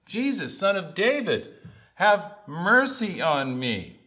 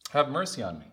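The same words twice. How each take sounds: First: High, drawn-out plea for mercy; retold cry, raised and imploring; crying out louder. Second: Said in the usual way. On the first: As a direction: call out as if to be heard over a crowd. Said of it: "He screams louder".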